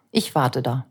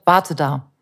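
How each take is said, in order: First: Said in the usual way. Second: Mother's command. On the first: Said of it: "wie ein Kind". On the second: Retold or imitated. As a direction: tell the child to stay put. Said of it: "dem die Mama gesagt hat".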